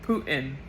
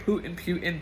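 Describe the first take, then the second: First: "Putin" said POO-tin after a little laugh; settled pronunciation with a laugh. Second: "Putin" tried as POO-tin then PYOO-tin; unsure pronunciation. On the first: Vlogger settles on "Putin" as POO-tin, laughing at the stumble. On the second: Vlogger checks how to say "Putin", trying POO-tin and PYOO-tin. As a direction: test "Putin" both ways, unsure which is right. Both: Shown as a demonstration. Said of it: "am I saying it right?".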